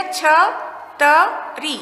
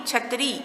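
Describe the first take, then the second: First: छ, त, री as separate sounds with pauses. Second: Said in the usual way. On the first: Shown as a demonstration. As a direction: spell out छ … त … री slowly for learners. (छ, त, री अलग-अलग, रुक-रुक कर) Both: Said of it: "क्या शब्द बन गया?".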